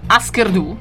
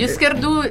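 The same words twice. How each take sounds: First: The name is said with American pronunciation. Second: The name is said with Norwegian pronunciation. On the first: "ora li pronuncio Husker Du, ho deciso di fare così, buona americana" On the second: "pronunciato in questo modo"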